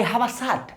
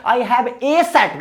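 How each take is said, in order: First: "a" as "aa" in I have a shirt, softer; correct article sound. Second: "a" as a full "ay" in I have a shirt, slowly; wrong article sound. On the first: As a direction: softly model "a" as "aa" before shirt. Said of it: "आ का उच्चारण होता है". ("a" का हल्का सही "आ" उच्चारण) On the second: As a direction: show the faulty slow "ay" before shirt. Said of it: "गलत बात". ("a" का धीमा गलत "ए" उच्चारण) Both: Shown as a demonstration.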